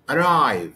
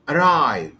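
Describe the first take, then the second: First: The stress is on the second syllable. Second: The stress is on the second syllable.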